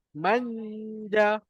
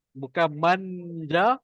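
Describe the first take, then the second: First: Manja with a held nasal hum, higher and slow; correct manja. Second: Manja without the nasal hum, slow; wrong manja. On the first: Teacher giving the right manja after the wrong one. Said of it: "tapi manja". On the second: Teacher contrasting wrong and right manja, slow. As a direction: show the wrong manja slowly. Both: Shown as a demonstration.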